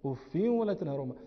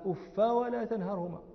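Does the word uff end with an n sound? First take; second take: yes; no. First: The word ends in a short i plus n. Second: The word ends in a short a without n. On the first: "اقرأ بالتنوين بالكسر وبالتنوين" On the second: "بفتحين"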